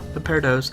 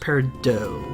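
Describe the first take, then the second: First: The final consonant of the name is pronounced. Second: The final consonant of the name is silent. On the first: The speaker calls it wrong. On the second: The speaker calls it right.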